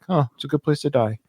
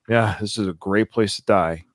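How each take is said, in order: First: It sounds sincere and comforted. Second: It sounds sarcastic and mocking.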